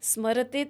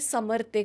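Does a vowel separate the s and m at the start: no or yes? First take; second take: no; yes. First: The word starts with a tight s-m cluster. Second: A short vowel is inserted between s and m. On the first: The speaker calls it right. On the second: The speaker calls it wrong.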